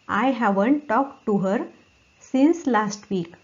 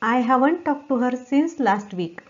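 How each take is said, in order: First: There is a short pause after 'her'. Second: The sentence flows without a pause after 'her'. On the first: "इथपर्यंत एक stop घ्यायचा, थोडा pause घ्यायचा" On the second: "आता पूर्ण म्हणा"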